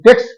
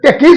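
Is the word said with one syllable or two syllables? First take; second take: one; two. First: The word ends directly in s, one syllable. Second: The word has an extra syllable before final s. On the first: The speaker calls it right. "सिर्फ एस जुड़ने से ही हो जाता है" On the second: The speaker calls it wrong. "गलत हो जाता है, उच्चारण गलत हो"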